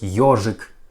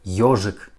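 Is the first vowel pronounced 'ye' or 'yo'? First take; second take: yo; yo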